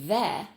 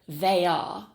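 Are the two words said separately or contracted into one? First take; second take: contracted; separately. First: The two words are contracted into one syllable. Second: The two words are said separately, uncontracted. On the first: It sounds more fluent and natural. The speaker calls it right. "using a contracted form like there" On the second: It marks the speaker as sounding foreign. The speaker calls it wrong. "say they are without contracting it into one word"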